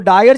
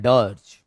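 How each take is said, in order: First: The vowel sounds like 'eye' followed by r. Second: The vowel sounds like 'er' as in 'her'. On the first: The speaker calls it wrong. "इसको डायर्ज नहीं पढ़ेंगे" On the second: The speaker calls it right. "इसको डज पढ़ा जाता है"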